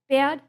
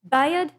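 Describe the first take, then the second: First: The vowel is one steady, unbroken sound. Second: The vowel glides in two parts, like bay-ad. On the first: This is how speakers from elsewhere say it. "if you're from somewhere else in the U S, uh, all three of those words for you might sound like" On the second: This is how older local speakers say it. "among like the older, the oldest folks, that would sound like"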